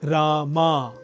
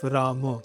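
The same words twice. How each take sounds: First: The final vowel is drawn out and exaggerated. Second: The final vowel is short and plain. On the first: "the ending gets a little exaggerated, sometimes a little too exaggerated. Almost Rama" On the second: "instead of Rama"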